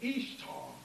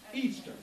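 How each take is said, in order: First: It is pronounced like Ishtar. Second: It is pronounced like Easter. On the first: The speaker calls it wrong. "some people will pronounce it Ishtar" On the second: The speaker calls it right. "it's actually pronounced Easter"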